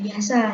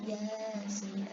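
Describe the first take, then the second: First: The letters are read as one ordinary word. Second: The letters are read as separate letter names. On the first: The speaker calls it wrong. "bukan uh, yasa ya" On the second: The speaker calls it right. "tapi dia dibacanya yasin"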